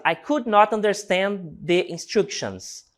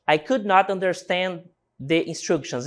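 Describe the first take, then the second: First: Slow, careful example sentence for the class; slow model reading. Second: Said in the usual way. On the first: Shown as a demonstration. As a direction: read slowly and clearly for learners. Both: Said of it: "Nossa quarta frase".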